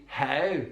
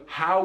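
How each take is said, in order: First: "how" with a closed Belfast ow; Belfast diphthong. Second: Said in the usual way. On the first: Shown as a demonstration. Teacher showing the Belfast version, closed diphthong. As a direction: tighten the ow of "how", Northern Irish style. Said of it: "feature of the Belfast accent". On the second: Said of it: "So how would be how".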